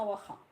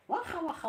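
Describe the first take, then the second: First: Said in the usual way. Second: واخا said high and bright as a teaching example; teaching the Moroccan word واخا; Moroccan word demo. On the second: Shown as a demonstration. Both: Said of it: "قولي لي واخا".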